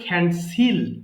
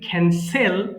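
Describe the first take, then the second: First: The second syllable has an 'i' vowel. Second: The second syllable has an 'e' vowel. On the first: The speaker calls it right. "But সঠিক উচ্চারণ ক্যান্সিল" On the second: The speaker calls it wrong. "এটাকে বলে থাকি ক্যান্সেল"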